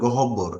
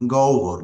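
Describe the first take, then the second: First: The word is said with three syllables. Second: The word is said with two syllables. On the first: The speaker calls it wrong. "অনেকেই এটার উচ্চারণ করে গহব্বর" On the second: The speaker calls it right. "আসলে শব্দটা হবে, উচ্চারণ হবে গহ্বর"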